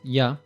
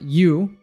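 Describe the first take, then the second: First: The word is said with a reduced vowel. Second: The word is said with a full vowel.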